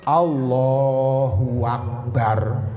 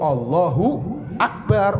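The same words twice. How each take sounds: First: A w sound is added before akbar. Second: No w sound is added before akbar. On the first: The speaker calls it wrong. "nggak boleh" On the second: The speaker calls it right. "Yang bener tuh"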